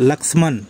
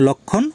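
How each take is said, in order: First: The name sounds like lakshman, with sh and m. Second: The name sounds like lokkhon, with no m. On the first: This is the Hindi pronunciation. "হিন্দিতে উচ্চারণ লক্ষ্মণ" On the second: This is the Bengali pronunciation. "বাংলায় উচ্চারণ লক্ষণ"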